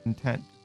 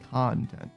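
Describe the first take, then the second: First: The stress is on the second syllable. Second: The stress is on the first syllable.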